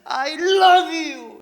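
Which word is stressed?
love. The stress falls on the word love. The feeling is deep love, more than liking. "그런 뜻이 되는 거고요"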